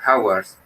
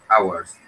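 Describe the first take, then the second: First: The word begins with a breathy h sound. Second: The word begins with no h sound. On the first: The speaker calls it wrong. "No vas a decir hours" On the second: The speaker calls it right. "sino hours. La H aquí es muda"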